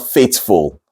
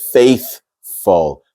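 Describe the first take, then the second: First: The middle consonant is a hard t. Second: The middle consonant is a light th. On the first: The speaker calls it wrong. "It's not faithful" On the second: The speaker calls it right. "It's faithful"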